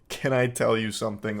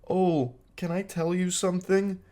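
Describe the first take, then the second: First: It is said in a plain normal voice. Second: It is said in a shy anime-girl voice.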